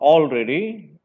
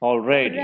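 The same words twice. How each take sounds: First: The stress is on the first syllable. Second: The stress is on the second syllable. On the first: The speaker calls it wrong. "it is not already" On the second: The speaker calls it right. "the stress should be on the second syllable"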